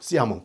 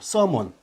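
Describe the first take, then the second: First: It ends in a nasal vowel, French-style. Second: It ends in a plain n, English-style. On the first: "불어는 이렇게 된 것이죠" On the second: "현대 영어는"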